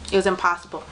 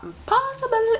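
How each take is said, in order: First: Said in the usual way. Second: "Impossible" jumps up high, stretched in disbelief; emphatic high "Impossible". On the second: Real, not acted. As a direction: fan who missed out on tickets, throwing out a high emphatic "Impossible". Complaining she couldn't get tickets.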